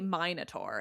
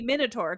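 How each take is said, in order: First: The first vowel is a long 'eye' sound. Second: The first vowel is a short 'i' sound. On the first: This is the British way of saying it. The speaker calls it wrong. "as the Brits say" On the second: This is closer to the Greek way of saying it. The speaker calls it right. "the Greek would be Minotaur 'cause I don't really have, like, a hard I sound"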